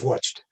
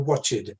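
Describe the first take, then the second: First: The word is said with one syllable. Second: The word is said with two syllables. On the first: The speaker calls it right. "it's a monosyllable in English" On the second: The speaker calls it wrong. "the fossilized mistake in many learners is to say watched"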